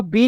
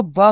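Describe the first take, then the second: First: बी said as the letter name "bee"; letter name, not sound. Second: ब said as the sound "buh"; letter sound. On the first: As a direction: say बी with a long ee, like the alphabet letter. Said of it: "इसको बी नहीं पढ़ोगे". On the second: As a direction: say ब as a short b sound, without the ee. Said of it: "आप इसको ब पढ़ोगे". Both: Shown as a demonstration.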